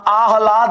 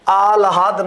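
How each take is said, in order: First: The h sound comes before the l sound. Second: The h sound follows the l sound. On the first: The speaker calls it right. "आह्लाद होता है" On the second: The speaker calls it wrong. "आह्लाद नहीं होता"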